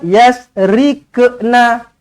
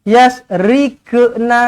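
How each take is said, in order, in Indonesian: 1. Bunyi q melantun dengan bunyi 'ke'. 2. Bunyi q melantun dengan bunyi 'ke'.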